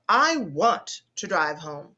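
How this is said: The stress falls on the word want. The speaker is insisting on going.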